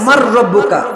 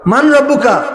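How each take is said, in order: First: The n merges into a doubled r sound. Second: The n sound is clearly pronounced before r.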